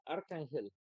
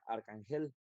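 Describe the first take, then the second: First: The stress is on the first syllable. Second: The stress is on the last syllable. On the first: "si fuera la primera" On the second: "Si fuera la última"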